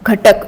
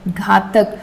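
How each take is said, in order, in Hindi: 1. पहला स्वर छोटा है, जैसे 'ghatak' में। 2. पहला स्वर लंबा है, जैसे 'ghaatak' में। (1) "अगर इंग्लिश को एज इट इज प्रोनाउंस करें तो ये घटक है" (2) "बट इसका मीनिंग जो निकलता है वो है घातक"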